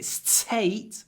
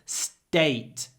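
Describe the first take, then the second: First: The t is released with a puff of air. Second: The t has no puff, almost like d. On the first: The speaker calls it wrong. "so I don't say state" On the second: The speaker calls it right. "but state"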